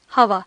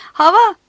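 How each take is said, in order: First: Said in the usual way. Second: Put-on loud, high little girl's cry; excited shout. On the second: A narrator's reading. Little girl answering her father's hint, shouting. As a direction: call it out high, with a rising end. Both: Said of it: "diye bağırdı küçük kız".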